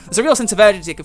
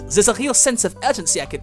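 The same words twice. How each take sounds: First: It is read in the usual natural voice. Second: It is read in a put-on foreign accent. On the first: "forget it" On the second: "I should do the French accent. That sounds more German"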